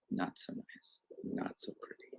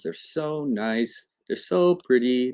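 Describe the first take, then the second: First: Whispered, deflated verdict; very soft, almost voiceless aside; hushed disapproval. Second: Drawn-out, lingering praise on "so"; slightly raised, admiring lilt. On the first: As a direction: drop to a whisper for the letdown. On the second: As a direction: dote on them, stretching "so". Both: Shown as a demonstration.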